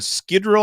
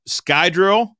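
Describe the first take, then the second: First: The first syllable sounds like 'skih'. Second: The first syllable sounds like 'sky'. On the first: Some others say it this way. "I've also heard guys pronounce it" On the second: This is the pronunciation usually heard. "is how I've ha- I've heard it pronounced"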